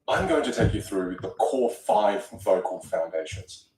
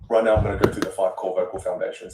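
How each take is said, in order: First: It is said slowly to highlight it. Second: It is said at a steady default rate.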